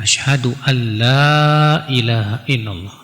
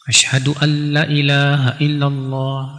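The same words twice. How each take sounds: First: The vowel of la is drawn out long. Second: The vowel of la is cut short. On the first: There is no god worthy of worship except God. The speaker calls it right. "yang benar kan dipanjangkan" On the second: There truly is a god besides God. The speaker calls it wrong. "la-nya dipendekin"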